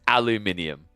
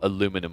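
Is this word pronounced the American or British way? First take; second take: British; American. First: It is said with five syllables, British style. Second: It is said with four syllables, American style. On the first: The speaker calls it right. "It is aluminium" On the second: The speaker calls it wrong. "how well aluminum was working for you guys"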